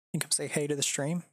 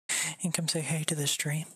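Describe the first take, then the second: First: Light coaxing voice to the dog, spoken aloud; voiced coaxing. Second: Whispered coaxing to the dog. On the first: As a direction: call the dog over gently. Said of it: "repeated as whisper". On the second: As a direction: hush it to the sleepy dog. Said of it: "repeated after normal take". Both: Real, not acted.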